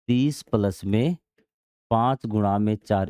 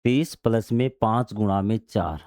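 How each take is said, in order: First: Group "पाँच गुणा में चार" as one bracket; bracket pauses. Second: Said in the usual way. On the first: Shown as a demonstration. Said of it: "इस प्रकार हमें कोष्ठक में ये लिखना पड़ेगा". (कोष्ठक दिखाते हुए धीमा, ठहराव के साथ) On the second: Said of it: "हमें इस प्रकार से लिखना होगा".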